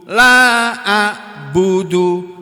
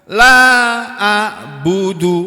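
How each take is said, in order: Both takes have the same delivery.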